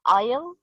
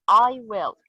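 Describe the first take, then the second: First: I'LL joined into one syllable, rising; contracted form. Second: Said in the usual way. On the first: Shown as a demonstration. Teacher giving an example of shortened words, contracted I'LL. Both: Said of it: "words that are shortened when spoken".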